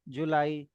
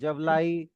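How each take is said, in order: First: An oo vowel follows the first consonant. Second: A v sound follows the first consonant. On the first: The speaker calls it right. "जुलाई is the best option among them. तो वहां पे वो ऊ की sound दे रहा है" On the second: The speaker calls it wrong. "तो आप तीनों लगा करके देखिए"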